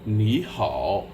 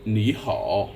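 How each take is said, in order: First: Ni rising, hao dipping; Ni hao with a rising first syllable; tone sandhi. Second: Ni hao with both third tones dipping; plain dipping third tones; greeting. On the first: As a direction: lift Ni upward, then dip hao. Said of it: "the first third tone becomes a rising tone". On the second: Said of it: "You simply say". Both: Shown as a demonstration.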